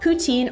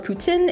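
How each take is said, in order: First: It is said with an English pronunciation. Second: It is said with a Quebec French pronunciation.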